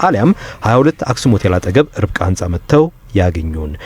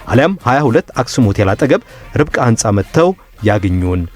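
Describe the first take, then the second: Both takes have the same delivery.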